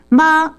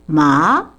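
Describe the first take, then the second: First: ま said on a high tone; ま sung up high, Cantonese mother. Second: ま said low in pitch; ま dropped low for horse; Cantonese horse tone. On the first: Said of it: "てこう高い音なんですよ". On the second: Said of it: "馬を意味するときには". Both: Shown as a demonstration.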